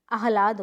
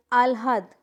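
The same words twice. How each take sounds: First: आह्लाद said aah-laad, h before the l; correct pronunciation. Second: आह्लाद said aal-haad, l before the h; wrong pronunciation. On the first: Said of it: "होता है". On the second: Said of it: "नहीं". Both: Shown as a demonstration.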